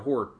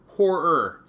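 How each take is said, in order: First: The word is said quickly and casually. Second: The word is said slowly with every sound clear.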